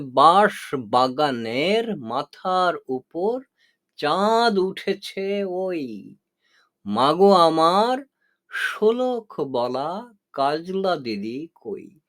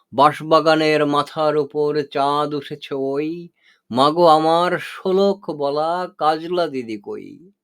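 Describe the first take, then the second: First: Slow recitation with each measure separated by pauses, বাঁশ set apart; beats broken apart. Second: Poem recitation. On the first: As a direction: count out the beats slowly, pausing between feet. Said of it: "এখানে আমি মাত্রাগুলো ভেঙে দেখিয়েছি". (মাত্রা ভেঙে ভেঙে ধীরে আবৃত্তি) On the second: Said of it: "এবার শেষ পর্যন্ত দেওয়া যাক". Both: Shown as a demonstration.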